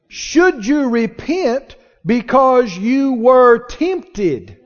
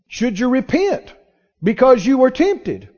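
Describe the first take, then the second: First: It is said very slowly. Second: It is said at normal speed.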